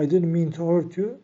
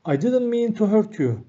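First: Said in the usual way. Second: Raised, careful model read of the English line; model sentence reading. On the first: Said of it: "teacher repeats sentence after explanation". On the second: Shown as a demonstration. Teacher reading the model sentence aloud, raised and clear. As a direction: read it out clearly for learners to copy. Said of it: "teacher models the English sentence".

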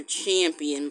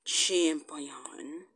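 First: Said in the usual way. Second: "champion" as cham-pee-ON, hushed; drawn-out champion. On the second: Shown as a demonstration. Naming the remaining one, "champion" hushed as cham-pee-ON. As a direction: whisper "champion" with a full final "on". First of two ways to say it.

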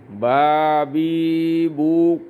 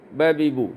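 First: বা বি বু with each vowel stretched very long; wrongly drawn-out vowels. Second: Said in the usual way. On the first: Shown as a demonstration. Teacher shows students the wrong way, vowels dragged out very slowly. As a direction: drag every syllable of বা বি বু far too long. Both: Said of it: "কোনো অবস্থাতেই টান দেওয়া যাবে না".

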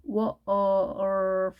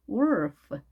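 First: "wolf" drawn out in separate sounds, w-or-f; sounded out. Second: Said in the usual way. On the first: Shown as a demonstration. Teacher shows the 얼 sound to learners, "wolf" sounded out. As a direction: stretch "wolf" slowly, sound by sound. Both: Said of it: "얼 발음이 이번에는 에이알이 왔죠".

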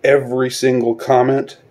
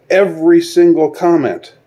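First: Said in the usual way. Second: "every single comment" pushed higher and louder, hitting "every"; emphatic repeat. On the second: Real, not acted. Ranting at Hollywood, second time with a higher, louder emphatic stress. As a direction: stress "every" hard, leaning on the whole phrase.

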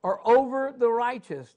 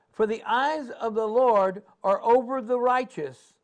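First: "over" hit hardest, falling; stress on over. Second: Said in the usual way. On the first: Shown as a demonstration. Preacher repeating the verse, landing hard on "over". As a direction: lean into "over" with a falling close. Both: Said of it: "repeat stressing over".

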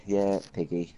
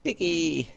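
First: Said in the usual way. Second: "Piggy!" called out high; calling out. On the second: Real, not acted. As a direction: sing out "Piggy!" with a falling tune. Calling out a nickname.

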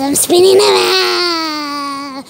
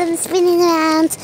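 First: Slow, drawn-out wail on the last word; mock dizzy wail. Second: Said in the usual way. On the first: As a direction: stretch "around" into a long pretend cry. Spinning out of control, stretched cry.

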